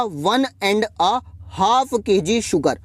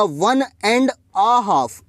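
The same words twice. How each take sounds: First: Slow, careful and clear; slow model phrase. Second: Very slow, each word drawn out; slow model phrase. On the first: Teacher asking students to listen closely, slow. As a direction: say it slowly so they catch it. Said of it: "ध्यान से सुनिएगा". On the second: Teacher showing students the English phrase, very slow. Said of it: "English में कैसे बोलूँगा". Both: Shown as a demonstration.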